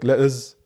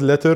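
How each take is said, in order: First: The final R sound is dropped. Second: The final R sound is pronounced. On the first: "they, like, ignore the letter R" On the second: "the word letter"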